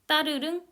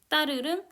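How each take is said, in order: First: The first consonant is one single tense sound. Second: The first consonant is one single tense sound.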